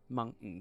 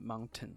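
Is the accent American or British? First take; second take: American; British. First: It is said with an American accent. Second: It is said with a British accent.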